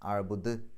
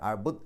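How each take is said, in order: First: The final d is released with a clear echo. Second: The final d is only touched and stops abruptly. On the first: The speaker calls it right. "ദ് എന്നുള്ളത് വ്യക്തമായിട്ട് പുറത്തേക്ക് കേൾക്കണം" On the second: The speaker calls it wrong. "തൊട്ട് വെച്ച് പോയാൽ പോരാ. അബുദ് എന്ന് പറഞ്ഞാൽ പോരാ"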